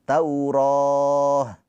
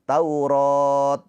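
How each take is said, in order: First: The word ends in an h sound. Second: The word ends in a t sound. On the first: The speaker calls it right. "dibacanya berubah menjadi huruf ha" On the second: The speaker calls it wrong. "bukan Taurat"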